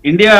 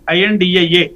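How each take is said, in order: First: It is said as one whole word. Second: It is spelled out letter by letter. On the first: The speaker calls it wrong. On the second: The speaker calls it right.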